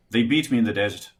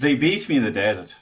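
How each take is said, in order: First: Lilting Irish accent; words tripping off the tongue, Irish. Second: Lighter Irish lilt; Irish accent, tip of the tongue. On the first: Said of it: "try an Irish". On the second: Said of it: "Okay, good, good". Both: Shown as a demonstration.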